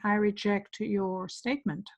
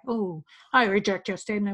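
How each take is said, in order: First: It is said in a calm, neutral tone. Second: It is said in an agitated, emotional tone.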